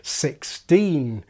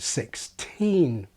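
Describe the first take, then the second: First: The t in teen has no puff of air. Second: The t in teen has a puff of air. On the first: The word is treated as a single unit. "with a D like in steam" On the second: The word keeps an internal boundary. "which allows an aspirated T in teen"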